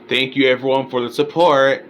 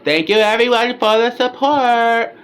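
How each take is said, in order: First: It is said in his own normal voice. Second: It is said imitating the woman's voice.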